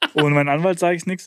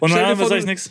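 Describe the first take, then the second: First: The sentence is said clearly at normal speed. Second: The sentence is mumbled quickly and indistinctly.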